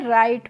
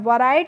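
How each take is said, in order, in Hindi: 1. शब्द की शुरुआत में w की कोई आवाज़ नहीं है। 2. शब्द की शुरुआत में w की साफ़ सुनाई देने वाली आवाज़ है। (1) "राइट पढ़ते हैं" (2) "वराइट नहीं पढ़ते हैं"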